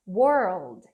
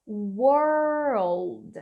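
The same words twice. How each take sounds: First: Put-on "world" shorter, falling low, "were" and "old" blended; model pronunciation. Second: Put-on "World" stretched very long, like "were" gliding into "old"; drawn-out pronunciation. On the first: Teacher repeats for learners, "world" blended and falling. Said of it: "Então fica world". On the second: Teacher shows learners how to say "World", exaggerated slow pronunciation. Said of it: "Imagina que você tá falando assim". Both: Shown as a demonstration.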